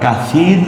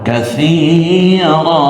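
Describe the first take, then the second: First: The word ends on a bare consonant. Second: The word ends with a long -a sound. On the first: The speaker calls it wrong. "আবার কাসীর ও বলবো না" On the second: The speaker calls it right. "এক জবর এবং এক আলিফ টেনে বলতে হবে"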